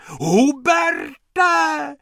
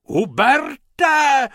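First: High, loud shriek again; calling even more desperately; shrieking lady. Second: High, loud shriek of a name; a frantic woman calling out; shrieking lady. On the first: Lady keeps shrieking for Hubert by the pool. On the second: Lady shrieks for Hubert as she runs. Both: Acted. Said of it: "ječela".

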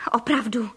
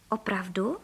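First: Firm „Opravdu,“ as a statement without a questioning lift; „Opravdu,“ as a settled promise; confirming. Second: Low, soft question on „Opravdu?“ rising at the end; „Opravdu?“ as a low, doubting question. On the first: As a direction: answer „Opravdu,“ firmly, in assurance. Father confirms his promise. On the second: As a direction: ask „Opravdu?“ quietly, lifting the last syllable. Duck doubts the promise. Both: A narrator's reading.

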